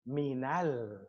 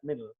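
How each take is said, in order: First: A short a vowel links the n and l. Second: The n and l meet with no vowel between. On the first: The speaker calls it right. "we put a fatha here" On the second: The speaker calls it wrong. "We don't say that"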